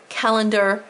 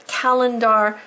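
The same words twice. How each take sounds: First: Said in the usual way. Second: "calendar" with its ending said "dar"; spelling pronunciation. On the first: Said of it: "even though we say calendar". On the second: Shown as a demonstration. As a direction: make the "ar" in "calendar" fully heard. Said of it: "I had to say calendar".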